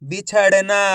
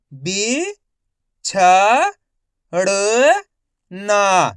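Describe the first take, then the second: First: बिछड़ना joined up; बिछड़ना in one unbroken piece; blended whole word. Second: बी, छ, ड़, ना as separate sounds; long pause after each of बी, छ, ड़, ना; syllable by syllable. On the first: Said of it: "तो मिलके बन जाएगा". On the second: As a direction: sound out बिछड़ना one syllable at a time. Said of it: "एक अक्षर का उच्चारण करके". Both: Shown as a demonstration.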